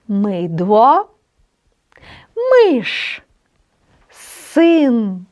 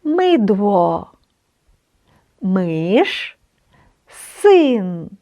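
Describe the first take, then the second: First: "Мидло", "Миш", "Син" each said slowly with a Polish y; reading words aloud. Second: "Мидло", "Миш", "Син" said again, lower and calmer; repeat the words. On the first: Teacher reading practice words to learners, deliberate. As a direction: model each word for the class. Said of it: "Давайте прочитаємо слова". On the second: Teacher repeating the words for students, calm. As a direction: say the words once more for learners. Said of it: "Я ще раз". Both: Shown as a demonstration.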